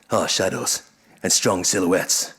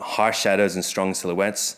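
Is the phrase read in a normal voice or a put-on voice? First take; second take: put-on; normal. First: It is read in a dramatic put-on voice. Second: It is read in the speaker's ordinary voice.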